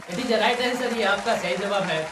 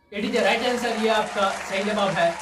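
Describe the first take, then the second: The two takes are said the same way.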